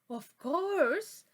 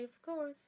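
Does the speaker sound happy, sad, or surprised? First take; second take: surprised; sad. First: It is said in a surprised, startled tone. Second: It is said in a slightly sad tone. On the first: The speaker is surprised by something strange. "that would be like surprise" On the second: The speaker feels a little down. "like I am a little bit sad"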